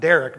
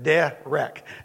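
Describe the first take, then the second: First: It sounds like the common English first name. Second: It is said Hebrew-style with an open 'eh' vowel. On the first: The speaker calls it wrong. "Not Derek" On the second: The speaker calls it right. "but derek. D-E-H-rek"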